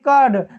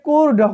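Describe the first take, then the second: First: The vowel is a short 'uh' sound. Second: The vowel is an 'oo' sound. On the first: The speaker calls it right. "यू के बाद आर आया है तो हम यू का उच्चारण ... अ से करेंगे" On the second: The speaker calls it wrong. "ऐसे मत पढ़ दीजिएगा"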